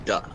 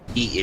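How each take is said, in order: First: The syllable ends with an 'uh' vowel. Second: The syllable ends with an 'ee' vowel. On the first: The speaker calls it right. "it's duh" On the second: The speaker calls it wrong. "it's not D"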